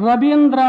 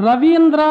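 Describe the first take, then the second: The two takes are said the same way.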